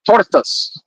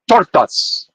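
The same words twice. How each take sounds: First: It is said flatly, without much energy. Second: It is said with lively energy and gusto.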